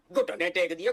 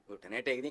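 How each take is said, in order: First: Said in the usual way. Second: Muttered sarcasm. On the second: Shown as a demonstration. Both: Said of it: "घुटने हैं कहाँ आपके".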